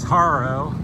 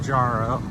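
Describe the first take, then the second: First: The name begins with an H sound. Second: The name begins with a J sound. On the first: It is how the locals say it. "they pronounce it Haro" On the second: It follows the spelling. "I say Jaro because it starts with a J"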